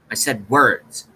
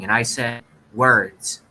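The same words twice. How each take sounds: First: Said in the usual way. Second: "and I said words" slowed, leaning on "words"; slow indignant repeat with "words" stressed; slow bitter stress on words. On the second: Shown as a demonstration. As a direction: drag it out and land hard on "words".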